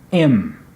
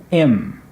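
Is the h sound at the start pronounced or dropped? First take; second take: dropped; dropped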